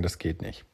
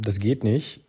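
First: „Das geht nicht“ leiser und tiefer, resigniert hingemurmelt; müdes Nörgeln. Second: Said in the usual way. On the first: Retold or imitated. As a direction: murmle „Das geht nicht“ leise und abgestumpft, wie nach Jahren. Nörgler in fünf Jahren noch. (leise, resignierte Wiederholung)

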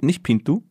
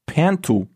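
First: Pintu with a plain short I and sounded N; German-style pronunciation. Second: Pintu with a nasal French first vowel; French pronunciation attempt. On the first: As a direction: ask Pintu as written, pitched up. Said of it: "das I spricht man bitte". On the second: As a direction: say Pintu as "pan-TU". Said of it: "Pint-, nicht Pintu?". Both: Shown as a demonstration.

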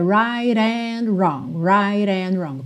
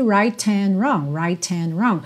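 First: RIGHT AND run together as "rai-ran"; flapped link. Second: RIGHT AND with a crisp T, "rait-and"; unlinked T. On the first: Teacher shows students the fluid link, tapped T. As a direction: tap the T of RIGHT into AND. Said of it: "junta no and com rarará". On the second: Teacher shows the less fluid option, full T. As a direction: sound the T in RIGHT before AND. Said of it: "Porque fica mais fluido do que". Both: Shown as a demonstration.

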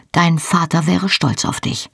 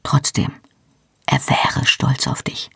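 First: Dry, teasing jab about his father; sarcastic, not meant kindly. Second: Sincere, softer, whispered reassurance; tender whisper to comfort him. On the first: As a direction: say it with a wry sarcastic edge. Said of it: "Es war sarkastisch gemeint". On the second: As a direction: whisper it gently, meaning it this time. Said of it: "sagte dann leise". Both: A narrator's reading.

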